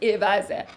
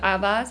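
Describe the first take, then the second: First: The word is said with an Arabic pronunciation. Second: The word is said with a Persian pronunciation. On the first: This is the original form in the source language. "احتمالا واژه درستش در زبان عربی عوضه" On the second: This is the everyday form used by speakers. "ما میگیم عوض"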